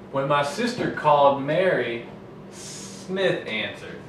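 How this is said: There is a break after Mary.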